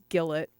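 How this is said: The name is said with an English-style pronunciation. "if you want to say it really Englishly"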